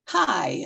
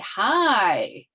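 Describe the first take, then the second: First: It is said softly and briefly. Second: It is louder, with a drawn-out vowel.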